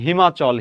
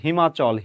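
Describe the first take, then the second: First: The two words merge into one quick word. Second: The two words merge into one quick word.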